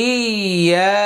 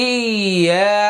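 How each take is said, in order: No difference in how they are said.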